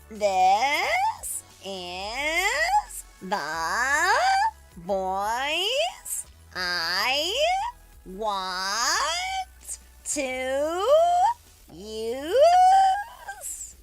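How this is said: The voice is creaky like a creaking door.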